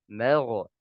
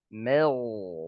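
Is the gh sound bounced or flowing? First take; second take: bounced; flowing. First: The gh sound ends with a bouncing release. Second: The gh sound flows on without a bounce. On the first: The speaker calls it wrong. "Kemudian dia qalqalahkan" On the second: The speaker calls it right. "Ini harusnya mengalir"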